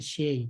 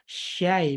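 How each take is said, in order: First: The vowel sounds like an 'e' sound. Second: The vowel is an open 'a' sound. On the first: The speaker calls it wrong. "jangan sampai dia jadi huruf E" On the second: The speaker calls it right. "huruf-huruf fathah harus Ki buka"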